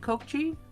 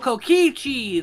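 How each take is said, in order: First: The name is said with two syllables. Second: The name is said with three syllables. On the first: The speaker calls it wrong. "Is that how you say it?" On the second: The speaker calls it right. "That makes more sense. My bad"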